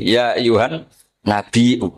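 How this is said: It is said with a glottal stop, Tamim style.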